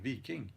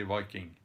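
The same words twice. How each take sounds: First: "Viking" said as VEE-king; preferred alternative pronunciation of Viking. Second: "Viking" said as VY-king; English pronunciation of Viking. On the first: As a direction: say "Viking" with a long ee first vowel. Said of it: "I can start saying Viking". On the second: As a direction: give "Viking" a long eye vowel, like "striking". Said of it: "teaching me how to say Viking". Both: Shown as a demonstration.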